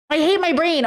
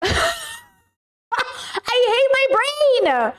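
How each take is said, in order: First: Slightly raised, falling exasperated repeat; milder exasperation. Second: High-pitched exasperated whine; frustrated wail. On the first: Streamer groaning over a forgotten name, mildly exasperated. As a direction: say it as a resigned complaint. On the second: Streamer to chat on blanking on a name, frustrated wail. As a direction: wail it high, falling on "brain". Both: Real, not acted.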